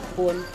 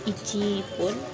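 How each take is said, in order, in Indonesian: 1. Angka memendek menjadi konsonan rangkap sebelum pun. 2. Angka lengkap diucapkan sebelum pun.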